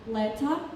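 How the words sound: It is said with a crisp British T. "they say leta or beta with T sound"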